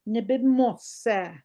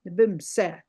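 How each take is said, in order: First: Nibimose slowly with every syllable, mo sounded out; full spelled-out form. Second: Nibimse with the o dropped, bim-se in two quick beats; everyday short form. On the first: Teacher reading the submitted word syllable by syllable. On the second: Teacher showing students how she really says it. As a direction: say Nibimse the way it's actually heard. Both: Shown as a demonstration. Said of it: "I don't hear the mose at the end".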